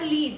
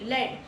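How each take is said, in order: First: The word rhymes with bead, a long vowel. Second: The word rhymes with bed, a short vowel. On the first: It means to go first or guide. The speaker calls it wrong. "not lead" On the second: It means a heavy grey metal. The speaker calls it right. "Rhymes as bed"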